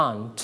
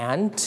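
First: "aunt" softly as "ahnt"; British style. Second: "and" as the word aunt, said like "ant"; American style. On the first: Teacher shows English style, soft "aunt" as "ahnt". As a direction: open "ah" in "aunt", lightly said. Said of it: "อังกฤษนั่นเอง". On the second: Teacher likens it to มด, "and" said like "ant". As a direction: front "a" of cat in "and", ending in t. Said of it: "หนูใช้แบบอเมริกัน". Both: Shown as a demonstration.

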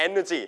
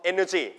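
No difference in how they are said.

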